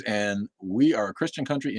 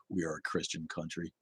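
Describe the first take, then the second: First: Said in the usual way. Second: Much softer, lower dismissive parody; mocking. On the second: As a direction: mutter it back with contempt. Mocking the viewer's comment.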